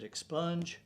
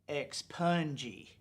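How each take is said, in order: First: The word ends on the 'j' sound. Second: The word ends with an added 'ee' syllable. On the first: This is the speaker's own way of saying it. The speaker calls it right. "I pronounce it expunge" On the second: Someone else said it this way. The speaker calls it wrong. "she pronounced it expungy"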